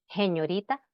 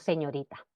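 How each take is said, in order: First: The first s sounds like a breathy h. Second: The first s sounds like a clear s.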